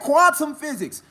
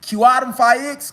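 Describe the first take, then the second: First: Physics is said in its standard form. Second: Physics is garbled into a misread form. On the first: The reader knows the term. The speaker calls it right. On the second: The reader does not know the term. The speaker calls it wrong.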